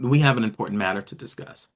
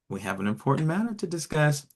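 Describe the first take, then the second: First: The tone is grave and serious. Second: The tone is bright and excited. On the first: Critical feedback or a consequence is coming. "more constructive feedback, or maybe there is a warning" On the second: Something good and interesting is coming. "it's exciting"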